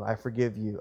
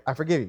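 First: Subdued, understated, heartfelt pardon; sincere prayerful forgiveness. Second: Mildly dismissive, quick acted pardon; offhand forgiveness. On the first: Acted. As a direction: let it go humbly, as if praying privately. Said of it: "That'd be the right way to go". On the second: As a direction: forgive them in the wrong spirit, brushing it off. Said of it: "That's not the right spirit".

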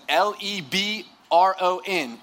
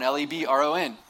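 First: Slow, drawn-out sassy spelling; exaggerated sass. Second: Said in the usual way. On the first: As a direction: spell it out slowly, letter by letter, with sass. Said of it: "it wasn't that much sass". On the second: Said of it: "but there was a little bit".

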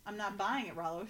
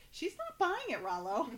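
First: Said in the usual way. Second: High-pitched comic relay of a line; playful high-voiced imitation; mock echo. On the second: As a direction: parrot it back much higher, dropping on the name. Retelling the echoed line, laughs after.

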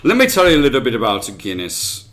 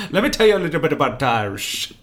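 First: Fast, lightly put-on Irish lilt; host unintentionally going Irish; Irish accent. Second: Mock Bohemian-sounding lilt; imitating the accent. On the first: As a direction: slip into a storyteller's Irish brogue. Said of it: "That was Irish accent again". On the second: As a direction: parody the host's slipping accent. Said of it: "You sounded Bohemian".

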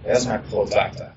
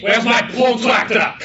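First: Said in the usual way. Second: Mock fussing. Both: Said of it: "He's like".

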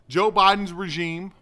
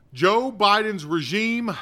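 First: Said in the usual way. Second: "Joe Biden's regime" said slowly, every word weighted; slow, stressed. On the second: Shown as a demonstration. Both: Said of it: "listen to what I'm saying now".

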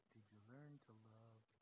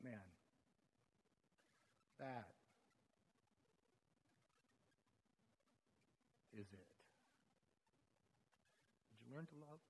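First: Very soft and low, reverent; soft and low, holding the awe; hushed quote. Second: Soft, lower, with long pauses; hushed reflection. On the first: Retold or imitated. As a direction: nearly whisper the Lord's question. Quoting the Lord's question softly. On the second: Real, not acted. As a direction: let it sink in, barely above a breath.

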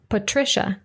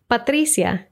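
First: Patricia as puh-TRISH-uh; English pronunciation. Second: Patricia as pah-TREE-syah; Spanish pronunciation. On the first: Teacher contrasting names between languages, English Patricia. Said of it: "followed by the English pronunciation". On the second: Teacher contrasting names between languages, Spanish Patricia. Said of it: "I'll read the Spanish pronunciation first". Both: Shown as a demonstration.

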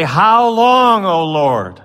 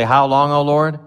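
First: High, louder plea; crying out. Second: Said in the usual way. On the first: Retold or imitated. The slain crying to God, high and loud. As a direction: call it up to the Lord. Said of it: "And they say". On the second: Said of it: "they cry out in a loud voice and say".

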